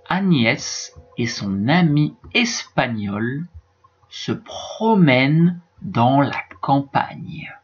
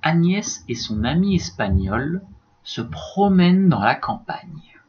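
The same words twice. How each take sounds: First: It is read at a slower, careful pace. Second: It is read at a somewhat faster pace.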